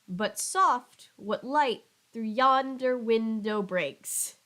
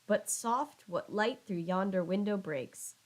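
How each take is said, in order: First: Only every second syllable is heavily stressed. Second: The stress falls naturally across the line. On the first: "If those were the only stressed syllables" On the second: "he utters a beautiful line of iambic pentameter"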